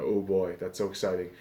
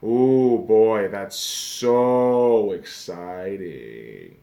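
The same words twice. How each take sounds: First: Deadpan, low and flat fake excitement; mock thrill with no life in it; sarcastic enthusiasm. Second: Very slow, dragged mock excitement; sarcastic drawn-out enthusiasm. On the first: Vlogger mocking preseason with sarcastic deadpan. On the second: Vlogger dragging out fake preseason excitement. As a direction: stretch every word in bored sarcasm. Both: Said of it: "You can hear the enthusiasm in my voice".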